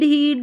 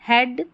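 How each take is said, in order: First: The vowel is a long 'ee' sound. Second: The vowel is a short 'e' sound. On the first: The speaker calls it wrong. "ऐसे नहीं बोल रहे हैं ई ए को ई पढ़िए" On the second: The speaker calls it right. "ई ए का ए sound आ रहा है"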